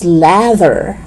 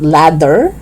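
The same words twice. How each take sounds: First: "lather" with buzzing TH; tongue out and humming mid "lather"; voiced TH. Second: "ladder" with hard D; firm D mid "ladder". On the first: Teacher correcting learners, "lather" with voiced TH. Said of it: "It's lather". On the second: Teacher showing learners the mistake, "ladder" with D. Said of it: "not ladder". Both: Shown as a demonstration.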